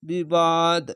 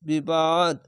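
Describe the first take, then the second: The two takes are said the same way.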